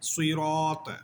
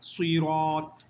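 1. র উচ্চারণ ভারী ও মোটা। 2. র উচ্চারণ ভারী ও মোটা।

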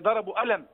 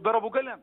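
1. يُقال بطريقة غير صعيدية. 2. يُقال بطريقة صعيدية. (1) "ما فيش حد يقول لك مثلا" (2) "لا يقول"

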